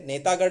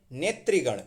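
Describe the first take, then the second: First: नेतागण with TAA in the middle; wrong form नेतागण. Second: नेत्रीगण with TRI in the middle; correct form नेत्रीगण. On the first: Teacher rejects what people usually say, mistaken form. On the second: Teacher corrects नेतागण, correct form. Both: Shown as a demonstration. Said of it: "नेतागण नहीं".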